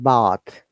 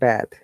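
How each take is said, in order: First: It is said with a British accent. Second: It is said with an American accent. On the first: "We said bath" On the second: "They said bath"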